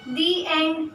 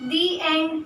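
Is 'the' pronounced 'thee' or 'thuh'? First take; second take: thee; thee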